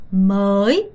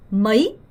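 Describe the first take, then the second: First: "머이" with a drawn-out first vowel; long, late-rising "머이". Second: "머이" cut short with a quick rise; brief, quickly rising "머이"; short vowel. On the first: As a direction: hold "어" in "머이", then rise late. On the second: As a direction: shorten "어" and go straight to i in "머이". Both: Shown as a demonstration. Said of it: "정확하게 구분해서 발음하셔야 돼요".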